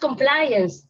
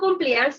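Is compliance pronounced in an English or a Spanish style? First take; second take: English; Spanish. First: The word is pronounced with English-style sounds. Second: The word is pronounced with Spanish-style sounds. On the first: The speaker calls it right. "es compliance" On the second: The speaker calls it wrong. "yo le digo compliance, en realidad la pronuncio mal"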